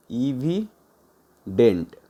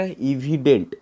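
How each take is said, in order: First: evident very slow, a gap before dent; broken in two. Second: Said in the usual way. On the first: Shown as a demonstration. Teacher giving learners a synonym, evident slowly broken in two. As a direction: say इवि, pause, then dent.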